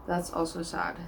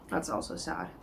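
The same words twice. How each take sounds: First: Said in the usual way. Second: Quiet and crestfallen; low, sad murmur. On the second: Real, not acted. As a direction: drop low and soft, deflated. Rereading her own annotations.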